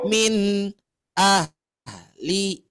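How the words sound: The sound stops and is held between the words. The speaker calls it wrong. "yang disebut jangan berhenti itu adalah ketika Ibu membaca begini"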